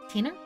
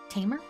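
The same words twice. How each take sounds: Both takes have the same delivery.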